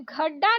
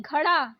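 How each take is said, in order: First: घड़ा with hard ड stop; wrong hard D. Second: घड़ा with flapped ड़; correct flapped ड़. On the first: Teacher showing learners the mistake, hard-D घड़ा. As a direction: say घड़ा with D, no flap. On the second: Teacher correcting learners, flapped घड़ा. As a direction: flick the ड़ in घड़ा. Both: Shown as a demonstration. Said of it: "नहीं".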